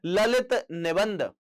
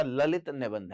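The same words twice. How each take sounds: First: Lalit निबंध drawn out slowly; slow emphatic repeat. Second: Said in the usual way. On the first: Shown as a demonstration. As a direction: stretch Lalit निबंध out for students to note. Teacher repeats answer for emphasis. (Lalit निबंध धीरे-धीरे, ज़ोर देकर)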